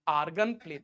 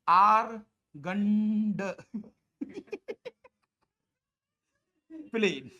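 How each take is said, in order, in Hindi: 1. Argand के अंत में d साइलेंट है। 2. Argand के अंत में d का उच्चारण होता है।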